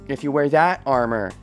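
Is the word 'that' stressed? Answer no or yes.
yes. The word 'that' carries the stress. The speaker calls it right. "as opposed to, you know, your other armor"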